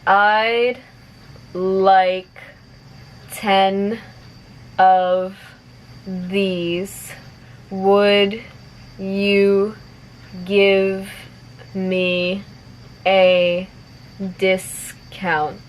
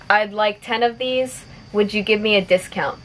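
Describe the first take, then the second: First: The sentence is spoken slowly. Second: The sentence is spoken at natural speed. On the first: "I'll say it slowly first" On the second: "one more time at normal speed"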